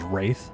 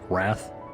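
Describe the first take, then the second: First: The vowel is a long 'ay' sound. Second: The vowel is a short 'a' sound. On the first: The speaker calls it right. "the second half of my name, W R A I T H, is Wraith" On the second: The speaker calls it wrong. "a lot of people call me like Light Wrath, like W R A T H"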